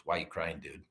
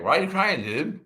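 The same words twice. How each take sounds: First: Said in the usual way. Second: Loud, high imitation of slurred speech. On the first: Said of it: "the question that changed my life was". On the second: Patient repeating his question to crying man, loud slur. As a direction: call it out louder, words slurred together. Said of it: "And in his slurred speech".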